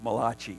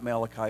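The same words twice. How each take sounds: First: The name is said in an Italian-sounding way. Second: The name is said in a plain English way. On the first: The speaker calls it right. "it's Malachi. He's an Italian prophet" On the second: The speaker calls it wrong. "is not Malachi"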